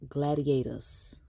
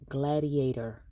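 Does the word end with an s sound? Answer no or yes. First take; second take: yes; no. First: The word ends with a final s sound. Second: The word ends without a final s sound. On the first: The speaker calls it wrong. "adds letters at the end of words where they don't belong" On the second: The speaker calls it right. "it's gladiator"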